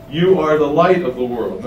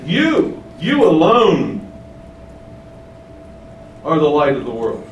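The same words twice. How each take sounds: First: Said in the usual way. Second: Slow, emphatic "you alone" with the pitch up on "You"; stress on You. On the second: Shown as a demonstration. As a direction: lean hard on "You, you alone" before the rest. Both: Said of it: "and that's emphatic".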